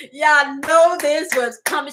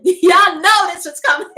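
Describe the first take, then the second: First: Said in the usual way. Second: Laughing through the words, slow; amused, slow laughing delivery. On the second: Real, not acted. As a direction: giggle it out to the viewers. Laughing opener to viewers.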